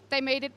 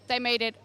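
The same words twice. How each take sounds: The two takes are said the same way.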